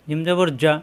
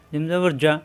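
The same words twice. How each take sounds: The two takes are said the same way.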